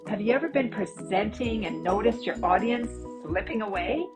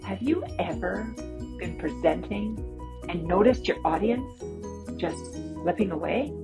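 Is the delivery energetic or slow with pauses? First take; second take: energetic; paused. First: It is said with lively, animated energy. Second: It is said with deliberate pauses for effect. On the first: This suits presenting online. "I was much more energetic and animated" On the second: This suits presenting in person. "I had a lot more pausing for effect"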